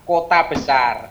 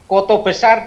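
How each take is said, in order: First: The first word ends with an 'a' sound. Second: The first word ends with an 'o' sound. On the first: It means a big city, not the place. The speaker calls it wrong. "salah ucap" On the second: It names the local place. The speaker calls it right. "Koto Besar dibacanya kota besar"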